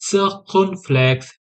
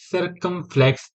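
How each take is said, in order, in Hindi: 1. यह शब्द फ़्रेंच उच्चारण से बोला जाता है। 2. यह शब्द अंग्रेज़ी उच्चारण से बोला जाता है। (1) "फ्रेंच में सर्कमफ्लेक्स, एन है इसमें फ्रेंच में" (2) "अगर हम इंग्लिश में प्रोनाउंस करते हैं"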